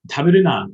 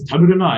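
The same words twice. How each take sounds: First: Louder firm command; strong prohibition. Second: Higher, louder gruff command; masculine command. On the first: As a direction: order it bluntly. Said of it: "strongly say". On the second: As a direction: bark it like a tough guy. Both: Shown as a demonstration.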